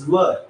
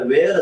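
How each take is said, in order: First: The vowel sounds like 'er', as in fur. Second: The vowel sounds like 'air', as in wear. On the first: The speaker calls it right. "पण it is वर" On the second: The speaker calls it wrong. "आपण मराठी माध्यमाची मुलं याचा उच्चार वेअर असं करतो"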